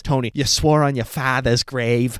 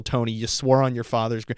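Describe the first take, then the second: First: A light imitation of a Boston accent. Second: Said in the usual way. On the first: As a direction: quote her in a hint of Boston. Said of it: "with her Boston accent". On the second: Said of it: "sorry, she says".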